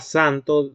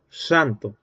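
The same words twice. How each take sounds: First: The s sounds plain, without a whistle. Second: The s sounds like a little whistle.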